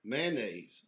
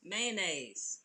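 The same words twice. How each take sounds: First: Mayonnaise said lower and clipped to two syllables, man-naise; local pronunciation. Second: Mayonnaise said carefully with every syllable; proper pronunciation. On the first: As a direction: say Mayonnaise the home Baltimore way, short. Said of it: "we said mayonnaise". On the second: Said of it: "you was all proper". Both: Shown as a demonstration.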